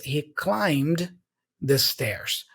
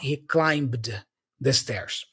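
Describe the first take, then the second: First: The B in climbed is silent. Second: The B in climbed is pronounced. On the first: The speaker calls it right. "So here is he climbed the stairs" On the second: The speaker calls it wrong. "not he climbed the stairs"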